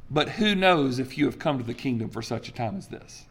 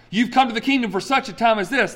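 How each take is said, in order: First: Said in the usual way. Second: Preacher mocking the misquoted verse; raised, mock-grand quoting of the popular misquote. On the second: Preacher mocks the popular misquote of Esther, voice raised and grand. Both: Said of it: "That's not what Esther four eleven says".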